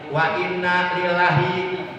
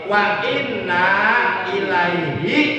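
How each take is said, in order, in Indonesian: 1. Kata terakhir diucapkan sebagai lillahi. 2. Kata terakhir diucapkan sebagai ilaihi. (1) "Ada yang salah mengucapnya begini" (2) "Jadi yang benar"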